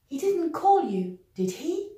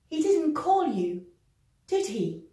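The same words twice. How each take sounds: First: The voice rises on the tag. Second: The voice falls on the tag. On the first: The speaker is unsure. "we're going to use the rising intonation" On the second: The speaker is quite sure. "using a falling intonation, which means we are rather sure"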